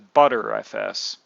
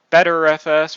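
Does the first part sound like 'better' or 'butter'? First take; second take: butter; better. First: The first part sounds like 'butter'. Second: The first part sounds like 'better'. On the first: "pronounced by others as Butter F S" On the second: "pronounced by some as Better F S"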